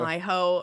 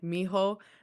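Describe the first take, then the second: First: The first syllable sounds like 'my'. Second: The first syllable sounds like 'me'. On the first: The speaker calls it wrong. "they say, like like, "my-ho," or something" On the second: The speaker calls it right. "instead of saying, like, "mijo,""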